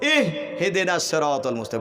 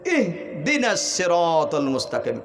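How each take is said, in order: First: An extra h sound is added before dina. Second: It is said without an extra h sound. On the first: The speaker calls it wrong. "নিজের তরফ থেকে একটা হা বাড়াই দেয়" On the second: The speaker calls it right. "বান্দা তুমি এরকম পড়বে"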